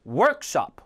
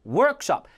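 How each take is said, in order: First: The stress is on the second syllable. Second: The stress is on the first syllable. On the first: The speaker calls it wrong. "workshop이 아니라" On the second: The speaker calls it right. "합성어니까 앞에"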